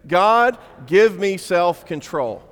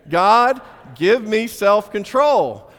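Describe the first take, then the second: First: It is said plainly, without a smile. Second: It is said with a smile.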